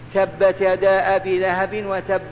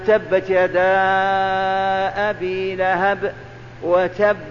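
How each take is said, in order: First: Vowels are short, with no nasal hold or lengthening. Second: Vowels are lengthened, with held nasal sounds throughout. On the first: This reading is sufficient and carries no sin. "ولو ما غنيت ولو ما مددت" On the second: This reading is virtuous and refined but not obligatory. "هذا التجويد فاضل راقي"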